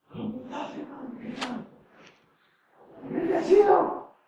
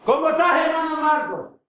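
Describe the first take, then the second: First: Whispered, rasped low greeting; deep rasp. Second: Said in the usual way. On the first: Retold or imitated. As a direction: croak it with a wrecked voice. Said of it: "Mi voz está más, más bajo todavía". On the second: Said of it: "Cuando llegué a la iglesia".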